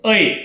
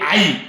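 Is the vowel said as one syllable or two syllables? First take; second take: one syllable; two syllables. First: The vowel is one clear gliding syllable. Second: The vowel splits into two syllables, aa then ee. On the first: The speaker calls it right. "ऐ हा उच्चार स्पष्ट ऐ" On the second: The speaker calls it wrong. "आई चूक आहे"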